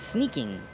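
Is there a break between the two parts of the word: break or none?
none. The two parts run together with no break. It means the act of sneaking.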